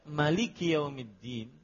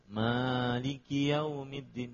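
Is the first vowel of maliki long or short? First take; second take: short; long. First: The first vowel of maliki is kept short. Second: The first vowel of maliki is held long. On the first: God is the only king on Judgment Day. "maliki enggak panjang" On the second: God is the one who owns and rules on Judgment Day. "mahnya panjang, ada matabi'i di situ"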